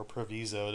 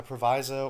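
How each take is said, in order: First: "proviso" said pro-VEE-zo; long-E pronunciation. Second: "proviso" said pro-VY-zo; long-I pronunciation. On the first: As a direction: say "proviso" with the middle rhyming with "see". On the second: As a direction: say "proviso" with the middle rhyming with "eye". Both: Shown as a demonstration. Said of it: "depending on who you ask".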